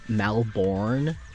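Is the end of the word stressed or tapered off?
stressed. The final syllable is emphasized and fully pronounced. This is how many Americans say it. The speaker calls it wrong. "Americans put a lot of emphasis on the end of their words"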